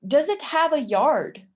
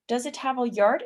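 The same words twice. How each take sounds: First: "yard" high and loud, then falling; emphatic question, falling end. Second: "yard" turned upward at the end; rising question intonation. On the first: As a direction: read it out firmly, dropping on "yard". First take of model question. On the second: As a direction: ask lightly, lifting "yard". Second take, question tune. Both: Shown as a demonstration.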